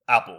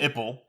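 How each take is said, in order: First: The first vowel is like the a in cat. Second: The first vowel is like the i in sit. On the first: The speaker calls it right. "saying apple" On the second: The speaker calls it wrong. "But you mistakenly say"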